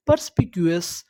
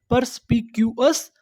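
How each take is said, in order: First: Said in the usual way. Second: "purse P Q S" in separate beats; broken into syllables. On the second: Shown as a demonstration. Teacher recalling the word for learners, syllable by syllable. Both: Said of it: "टुकड़ों में तोड़-तोड़ के पढ़ना है".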